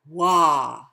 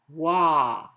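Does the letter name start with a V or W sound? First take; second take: W; W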